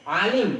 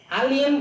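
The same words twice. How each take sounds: First: The word starts with a throaty ain sound. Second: The word starts with a plain vowel sound. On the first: It means a learned person. "Alim berilmu, orang berilmu" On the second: It means painful or sick. "Alim berarti orang penyakit"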